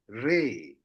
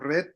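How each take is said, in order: First: The word ends on an open vowel. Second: The word ends with a final consonant sound. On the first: This is the modern form of the word. The speaker calls it right. "we say ray" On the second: This is the older form of the word. The speaker calls it wrong. "Before we read like ret"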